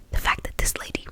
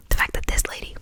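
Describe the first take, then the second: No difference in how they are said.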